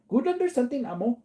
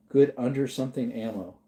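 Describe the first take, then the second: First: Reading the garbled phrase higher, puzzled; reading a typo. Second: Said in the usual way. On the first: Shown as a demonstration. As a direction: quizzical read of "Good under something ammo". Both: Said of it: "Is that another typo?".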